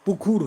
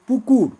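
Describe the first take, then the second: First: পুকুর with an aspirated kh, পুখুর. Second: Said in the usual way. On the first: Shown as a demonstration. Teacher shows the class an aspirated পুকুর. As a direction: breathe out hard on the ক of পুকুর. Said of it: "পিনায়ন". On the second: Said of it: "পুকুর হয়ে যায়".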